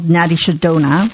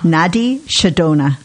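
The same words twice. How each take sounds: First: It is said at normal speed. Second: It is said slowly.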